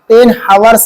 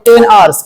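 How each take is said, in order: First: 'Hours' begins with an audible h sound. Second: 'Hours' begins with a vowel, no h sound. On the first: The speaker calls it wrong. "Ten हावर्स नहीं" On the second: The speaker calls it right. "वो ten आवर्स"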